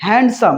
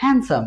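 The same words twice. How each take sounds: First: হ্যান্ডসাম with the D sounded, hand-sum; common mispronunciation. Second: হ্যান্ডসাম as han-sum, D silent; correct pronunciation. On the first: Teacher quotes what everyone says, D heard in হ্যান্ডসাম. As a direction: voice the middle D in হ্যান্ডসাম. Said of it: "সবাই বলে কি?". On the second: Teacher answers with the right form, no D in হ্যান্ডসাম. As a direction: drop the D from হ্যান্ডসাম. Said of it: "কিন্তু উচ্চারণটা কি হবে?". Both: Shown as a demonstration.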